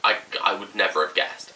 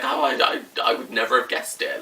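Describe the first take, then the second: First: Said in the usual way. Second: Half-hearted squeaky imitation of her; lightly mimicking a friend's shocked squeak; imitating friend. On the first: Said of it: "She was like". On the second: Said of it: "she's like".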